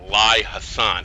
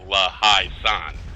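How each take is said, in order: First: The name begins with a 'lie' sound. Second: The name begins with a 'la' sound. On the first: The speaker calls it wrong. "I always pronounce it wrong. I always call it Lai Hassan" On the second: The speaker calls it right. "it's really La Hai San"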